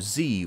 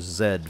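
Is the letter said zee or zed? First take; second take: zee; zed. First: The letter is said as zee. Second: The letter is said as zed, British style.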